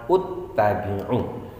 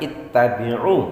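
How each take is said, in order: First: The word begins with a u vowel. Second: The word begins with an i vowel. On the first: The speaker calls it wrong. "juga bukan dibaca uttabi'u" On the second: The speaker calls it right. "kita baca ittabi'u"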